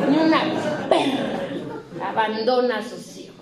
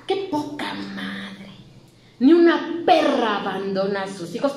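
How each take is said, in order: First: Grandmother scolding with heat. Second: Grandmother scolding. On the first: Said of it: "le echaba calor así". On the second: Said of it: "decía". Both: Retold or imitated.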